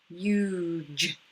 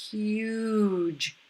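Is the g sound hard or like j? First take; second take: j; j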